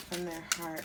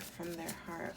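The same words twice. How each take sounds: First: Said in the usual way. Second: Softer echo. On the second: Shown as a demonstration. Reader echoing the question to herself, softer. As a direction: repeat it softer, fading away.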